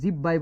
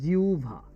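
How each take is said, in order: First: The middle is pronounced as a doubled b. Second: The middle is pronounced as w followed by bh. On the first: The speaker calls it wrong. "সারা জীবন তো জিউ জিব্বাই বলছেন" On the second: The speaker calls it right. "শুদ্ধ উচ্চারণ হচ্ছে জিউভা"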